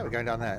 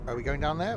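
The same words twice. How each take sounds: First: Falling statement tune on there; settling it, going down there; stating. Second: Rising question tune on there; asking whether to go down there. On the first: Driver deciding the route, falling statement. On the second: Driver checking the route, asking with a rise. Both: Shown as a demonstration.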